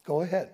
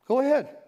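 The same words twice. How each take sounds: First: Said in the usual way. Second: Higher, goading repeat of go ahead; mocking dare. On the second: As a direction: throw it back as a taunt. Sheep taunting, repeated.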